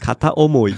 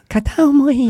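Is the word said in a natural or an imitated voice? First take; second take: natural; imitated. First: The word is said in a natural voice. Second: The word is said in an imitated voice.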